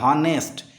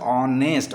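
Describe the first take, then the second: First: The word begins with an h sound. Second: The word begins with a vowel sound. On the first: The speaker calls it wrong. "or not honest" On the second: The speaker calls it right. "honest is pronounced as honest"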